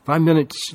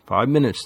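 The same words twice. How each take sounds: First: Eager repeat. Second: Said in the usual way. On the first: A narrator's reading. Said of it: "Lily repeated".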